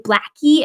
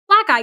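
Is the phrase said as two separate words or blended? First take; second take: blended; separate. First: The two words blend into one, like 'blackie'. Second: The two words are said separately, 'black eye'. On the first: The speaker calls it wrong. "where they say you blackie" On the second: The speaker calls it right.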